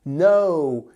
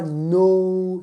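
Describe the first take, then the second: First: No with oh sliding to oo; English gliding O. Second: No drawn out on pure rounded oh; wrong French O. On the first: Teacher giving the correct take, gliding no. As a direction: open no and glide it, not French. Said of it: "c'est no". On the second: Teacher showing the mistake, French-mouthed no. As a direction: push no from the tip of the lips, French-style. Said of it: "c'est pas avec le bout de la bouche comme en français". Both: Shown as a demonstration.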